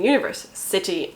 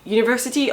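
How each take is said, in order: First: It is said as two words, universe and city. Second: It is said as the single word university. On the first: It names the podcast in the book. The speaker calls it right. "I mean Universe City" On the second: It names a place of higher education. The speaker calls it wrong. "and not University"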